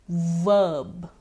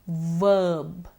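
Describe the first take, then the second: The two takes are said the same way.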